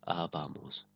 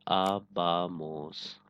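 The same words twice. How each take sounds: First: Said in the usual way. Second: आबामोस stretched out syllable by syllable, very slowly; slow model word. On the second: Shown as a demonstration. Teacher showing students the new ending, very slowly. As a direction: drag out आबामोस so every syllable is clear. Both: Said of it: "सिर्फ इस R A को हटाएंगे".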